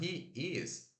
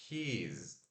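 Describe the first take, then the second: First: Two separate words are said in full. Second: The two words are joined into one syllable. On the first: "Ao invés de falar he is" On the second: "a gente fala his"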